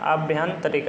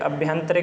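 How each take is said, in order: First: The first vowel is a long 'aa'. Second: The first vowel is a short 'a'. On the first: The speaker calls it right. "यहाँ पे आ जुड़ जाता है" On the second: The speaker calls it wrong. "अभ्यंतरिक नहीं होता है"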